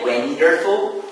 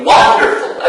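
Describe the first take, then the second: First: WONDERFUL with the first syllable left unstressed; wrong stress. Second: WONDERFUL with stress on WON; first-syllable stress. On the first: Teacher showing students what not to say, WONDERFUL misstressed. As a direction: say WONDERFUL without the punch on WON. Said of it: "So we don't say". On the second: Teacher showing students the correct way, stress on WON. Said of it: "the stress is on the first". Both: Shown as a demonstration.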